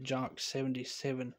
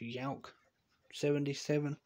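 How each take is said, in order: First: The name begins with a J sound. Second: The name begins with a Y sound. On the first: The speaker calls it wrong. "I'm just going to say it" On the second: The speaker calls it right. "It's actually supposed to be pronounced"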